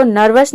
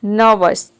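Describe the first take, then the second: First: नर्वस said with a clear r before the v; teacher's wrong take of नर्वस, r pronounced. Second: नर्वस with the r dropped, नव-वस; teacher's correct take of नर्वस, r silent; right way, silent r. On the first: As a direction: sound the r in नर्वस. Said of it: "इसको नर्वस नहीं बोलते हैं". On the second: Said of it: "या फिर silent रख सकते हैं". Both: Shown as a demonstration.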